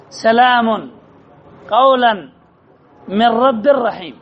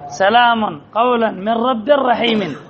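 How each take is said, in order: First: Each word set apart with its tanween sounded, سلام as salamun and قولا as qaulan; teacher separates the words so students hear every nunation; word by word recitation. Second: سلام قولا من رب رحيم flowing in one slow breath, tanween linked into the next word; whole verse read through, nunation carried over; joined recitation. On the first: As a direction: lay out سلام، قولا، من رب رحيم slowly, one word at a time. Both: Shown as a demonstration. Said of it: "كم كلمات في هذه الآية منونة".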